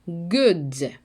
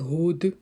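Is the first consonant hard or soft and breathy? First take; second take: hard; soft. First: The first consonant is a hard stopped g. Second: The first consonant is a soft breathy h-like sound. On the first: The speaker calls it right. "В англійській г тверда" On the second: The speaker calls it wrong. "Не треба казати good"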